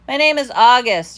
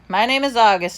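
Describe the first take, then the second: First: It is said loudly and clearly. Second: It is mumbled quietly.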